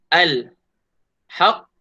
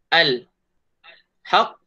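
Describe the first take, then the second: Both takes have the same delivery.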